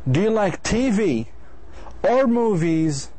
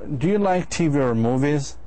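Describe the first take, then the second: First: The voice falls at the end as a choice question. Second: The voice rises at the end as a yes-no question. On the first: It asks the listener to pick one of the two. "you're actually asking him to choose either T V or movies" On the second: It asks whether the listener likes either one. "So you're not actually أنت ما بتخيره هون"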